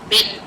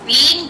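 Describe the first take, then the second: First: The word is said in a shortened weak form. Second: The word is said in its full form. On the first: "becomes been" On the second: "the been becomes"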